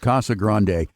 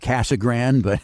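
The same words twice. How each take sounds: First: The name is pronounced with Spanish-style sounds. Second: The name is pronounced with English-style sounds. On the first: "I like to go with the Spanish pronunciation" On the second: "Some people say Casa Grande"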